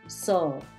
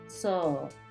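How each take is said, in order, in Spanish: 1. La vocal es una o alargada. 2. La vocal es una o alargada.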